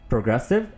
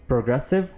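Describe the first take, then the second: Both takes have the same delivery.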